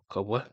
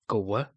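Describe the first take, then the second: First: The k and w are heard as two sounds. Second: The k and w are heard as two sounds.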